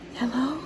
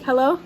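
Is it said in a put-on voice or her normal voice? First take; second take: put-on; normal. First: It is said in an exaggerated put-on voice. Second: It is said in her own normal voice.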